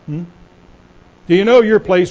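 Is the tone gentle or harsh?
harsh. The question is asked in a harsh, demanding tone. It is a put-down. "Wrong tone"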